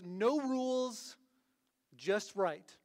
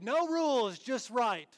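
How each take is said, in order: First: It is said in the speaker's ordinary accent. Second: It is said in a put-on Australian accent.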